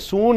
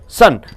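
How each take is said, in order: First: The vowel is a full, clear vowel. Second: The vowel is a short, reduced uh sound. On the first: The speaker calls it wrong. "you don't say soon" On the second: The speaker calls it right. "you say sun. This U is pronounced as uh"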